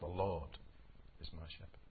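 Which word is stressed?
Lord. The word Lord carries the main stress. It answers who the shepherd is. "Who is my shepherd?"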